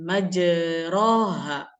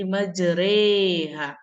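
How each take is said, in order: First: The vowel after the r is an open a. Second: The vowel after the r is tilted toward e. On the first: "bacaan majroha" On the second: "Memiringkan bacaan majroha menjadi majreha"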